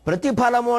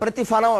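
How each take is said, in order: First: The consonant is an aspirated p sound. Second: The consonant is an f sound. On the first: The speaker calls it right. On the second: The speaker calls it wrong.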